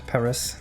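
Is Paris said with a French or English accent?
English. It is said the English way, final s sounded. The speaker calls it wrong. "not Paris"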